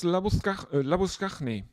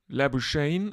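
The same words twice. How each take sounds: First: The name is said in a non-Australian way. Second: The name is said the Australian way.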